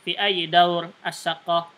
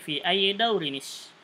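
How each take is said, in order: First: The word ends bare with no linking sound. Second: An extra 'ni' sound links the two words. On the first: This is the casual spoken style. "ketika berbicara sukunkan tidak masalah" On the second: This is the careful Quranic reading style. "Ketika diteruskan bacaannya ... tanwin bertemu dengan hamzah wasal ditambah nun wasal"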